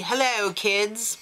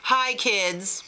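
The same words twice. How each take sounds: First: Mock English accent greeting; lightly imitated English accent. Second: Mock New York Jewish greeting; lightly put-on New York Jewish voice; New York Jewish accent. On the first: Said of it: "I did an English accent for him". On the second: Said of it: "He's totally New York Jewish".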